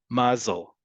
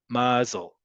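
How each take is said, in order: First: The stress is on the first syllable. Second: The same.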